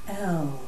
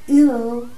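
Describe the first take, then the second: First: An open 'eh' vowel, resonant and low. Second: A closer 'ih' vowel, placed high in throat. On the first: It awakens the heart to the presence of God. "you can feel it in your heart. ... It's a resonant sound with that part of our being" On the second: It is a self-assertive declaration. "which is high in the throat"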